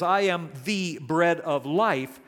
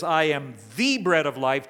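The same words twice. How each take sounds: First: Said in the usual way. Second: "the" said long and louder, leaned on hard; stress on THE. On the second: Shown as a demonstration. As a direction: land hard on the word "the" in "I am the bread of life". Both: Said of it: "It emphasizes the word "the".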